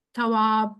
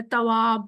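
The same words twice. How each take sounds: First: تھواب said with a breathy aspirated th, as if spelt TH; aspirated th pronunciation. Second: تواب said with a plain hard t, as if spelt with T; t-spelling pronunciation. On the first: Teacher showing students the wrong th-reading of تھواب. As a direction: push a puff of air after the t in تھواب. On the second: Teacher showing students the wrong t-reading of تواب. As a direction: say تواب with the tongue behind the teeth, a crisp t. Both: Shown as a demonstration. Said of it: "English میں T H لکھا جاتا ہے یا T".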